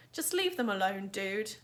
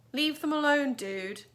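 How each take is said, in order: First: Level, steady repeat of the warning; calm steady warning. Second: Louder, higher warning to back off; raised firm warning. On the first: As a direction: say it again calmly, unshaken. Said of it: "Amos repeated calmly". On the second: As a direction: tell the bullies to back off. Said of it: "said Amos". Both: Acted.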